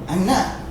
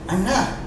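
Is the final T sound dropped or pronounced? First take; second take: dropped; dropped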